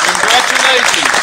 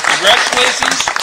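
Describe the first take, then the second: No difference in how they are said.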